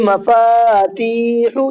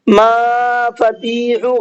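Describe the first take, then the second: First: Only the two middle syllables are drawn out. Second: The first syllable is also drawn out. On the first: The speaker calls it right. "ये मफातीहु ये सही है" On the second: The speaker calls it wrong. "गलत, यहाँ पर मीम भी खिंच गया"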